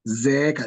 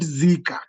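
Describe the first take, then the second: First: The vowel after z is a long 'eh'. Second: The vowel after z is an 'ee' sound. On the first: The speaker calls it right. "You can pronounce it as zeeka" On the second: The speaker calls it wrong. "not zika"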